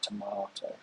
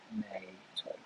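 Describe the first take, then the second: First: It is said with a British pronunciation. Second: It is said with an American pronunciation. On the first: "in the U K we should pronounce it like tomato" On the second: "in the U S they would say tomato"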